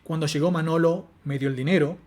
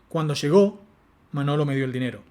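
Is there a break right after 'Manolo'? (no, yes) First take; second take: yes; no. First: There is a boundary break right after Manolo. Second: There is no boundary break after Manolo.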